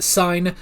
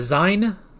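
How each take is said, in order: First: The name begins with an s sound. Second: The name begins with a z sound. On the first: It is read the way it is spelled. "it's spelled sign" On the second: It is said the way the characters say it. "they pronounce it more of a Zine"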